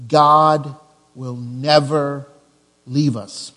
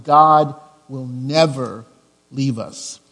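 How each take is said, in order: First: Slow with weight on "never"; stress on never. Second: "God will never leave us" slow and firm; stress on never. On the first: Pastor to congregation, slow stressed "never". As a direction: lean into "never" slowly. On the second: Repeating the main point, slow and firm. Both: Shown as a demonstration. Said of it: "That's the fill-in number one".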